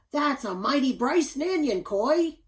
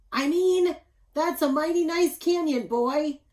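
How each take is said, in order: First: Loud, high, flustered booming slip of the tongue; a big lumberjack tripping over his words; tongue-tied giant dad. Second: Loud, high father fixing his words; flustered correction. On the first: Tongue-tied father bellows at his son, loud and high. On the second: Father corrects his slip to his son, loud and high. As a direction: blurt the fix in a hurry, booming. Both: A narrator's reading. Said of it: "Pa Bunyan got tongue-tied and said".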